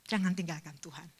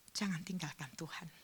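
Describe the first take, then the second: First: Said in the usual way. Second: Soft unvoiced whisper. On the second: Shown as a demonstration. Pastor pleading with the grieving mother, hushed whisper. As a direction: whisper it close, like a secret plea.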